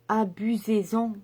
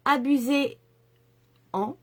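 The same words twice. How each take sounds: First: Said in the usual way. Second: Abusez-en stretched out slowly, each syllable placed; slow careful abusez-en. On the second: Shown as a demonstration. Urging viewers to use the yellow, slowly and carefully articulated. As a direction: spell out abusez-en slowly and deliberately. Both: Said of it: "je vais y arriver".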